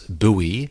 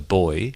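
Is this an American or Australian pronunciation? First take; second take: American; Australian. First: It is said in an American pronunciation. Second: It is said in an Australian pronunciation. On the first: "We don't pronounce buoy, which the Americans used" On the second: "We call it a buoy"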